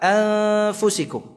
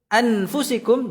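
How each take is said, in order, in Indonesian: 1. Bunyi n dilemahkan dan disamarkan dengan sengau. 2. Bunyi n diucapkan jelas dan penuh. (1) "dibaca dengan ikhfa"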